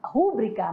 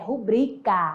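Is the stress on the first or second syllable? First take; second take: first; second. First: The stress is on the first syllable. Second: The stress is on the second syllable. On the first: The speaker calls it wrong. "No dia a dia a pessoa fala" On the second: The speaker calls it right. "certo, amado, é rubrica... ela é paroxítona"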